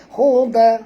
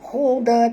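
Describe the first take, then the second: First: The final d bounces into a short vowel. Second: The same.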